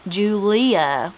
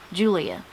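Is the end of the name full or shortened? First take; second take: full; shortened. First: The ending is said as a full 'lee-ah'. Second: The ending is shortened to a quick 'ya'.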